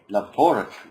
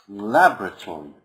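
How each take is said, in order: First: It is said with a British pronunciation. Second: It is said with an American pronunciation. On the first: "The first one is the British laboratory" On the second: "Some people, or the Americans, say it like this"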